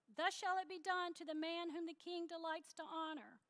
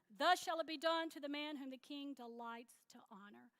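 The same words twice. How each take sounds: First: It is said in a plain, engaged way. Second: It is said reluctantly, without enthusiasm.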